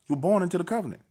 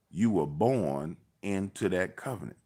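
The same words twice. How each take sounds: First: Emphatic repeat. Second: Slow, measured first statement; slow deliberate point. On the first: Arguing birthright with his cousin, raised emphatic repeat. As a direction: hammer the point home. Driving home point to cousin. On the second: Arguing birthright with his cousin, slow and deliberate. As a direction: spell it out slowly for him. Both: Retold or imitated.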